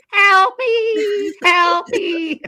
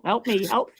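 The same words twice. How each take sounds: First: High, loud desperate shriek; panicked scream for help. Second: Said in the usual way. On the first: Retold or imitated. Drowning man replays his cry to friends, frantic high scream. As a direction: yell like the tide is pulling you under. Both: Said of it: "I was screaming at the top of my lungs".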